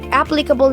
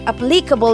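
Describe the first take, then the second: First: The stress is on the first syllable. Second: The stress is on the second syllable. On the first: "na nasa unahan ang stress" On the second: "na nasa second syllable or nasa li ang stress"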